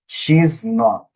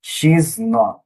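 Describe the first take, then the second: First: She and is are merged into one syllable. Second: The same.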